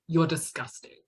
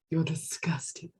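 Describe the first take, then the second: First: It sounds insulting, like a put-down. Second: It sounds admiring, like a compliment. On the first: It is an insult to the other person. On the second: It is praise for the other person.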